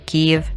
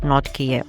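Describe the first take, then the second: First: The name is pronounced the Ukrainian way, Kyiv. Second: The name is pronounced the Russian way, Kiev. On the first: It respects the Ukrainian name of the city. The speaker calls it right. "Kiev is the correct Ukrainian one" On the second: It follows the outdated Russian form of the name. The speaker calls it wrong. "Kiev is the outdated Russian transliteration"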